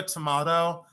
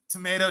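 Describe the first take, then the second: First: "tomato" as tuh-MAH-doh; broad-A pronunciation. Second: "tomato" as tuh-MAY-toh; long-A pronunciation. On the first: Seller shrugging off the debate, "tomato" as tuh-MAH-doh. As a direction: say "tomato" with an AH vowel. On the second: Seller shrugging off the debate, "tomato" as tuh-MAY-toh. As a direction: say "tomato" with an AY vowel. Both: Shown as a demonstration.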